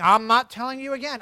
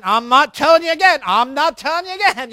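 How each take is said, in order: First: Said in the usual way. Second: Louder, stuck on the same threat; exasperated repeated warning. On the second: Retold or imitated. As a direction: repeat the warning with rising frustration. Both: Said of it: "If you hear yourself saying".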